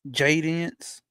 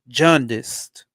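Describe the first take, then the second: First: The first syllable sounds like 'ja' without an n. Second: The first syllable sounds like 'jawn' with an n. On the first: The speaker calls it wrong. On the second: The speaker calls it right.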